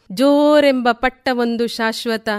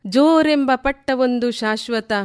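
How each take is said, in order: Both takes have the same delivery.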